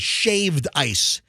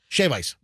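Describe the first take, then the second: First: The first word ends with a d sound. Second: The first word ends without a d sound. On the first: The speaker calls it wrong. "you don't say shaved ice" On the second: The speaker calls it right. "It's shave ice. Just shave"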